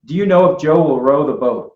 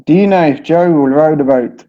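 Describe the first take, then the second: First: American O's in Joe, row and boat; American accent. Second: British O's in Joe, row and boat; British accent. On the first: American teacher demonstrating the O sound. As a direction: read it with American vowels. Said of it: "So I would say". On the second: British teacher reading the sentence on request. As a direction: read it with British vowels. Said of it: "how would you say that?". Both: Shown as a demonstration.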